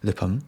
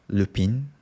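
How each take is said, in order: First: It is said with a Japanese pronunciation. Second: It is said with an English pronunciation. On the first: "in Japanese I pronounce" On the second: "in English is some it, it is yeah pronoun, pronounced Lupin maybe"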